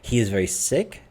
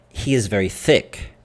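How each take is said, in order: First: The word sick begins with a clear s. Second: The word sick begins with a th sound. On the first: The person is ill. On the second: The person seems to be called thick.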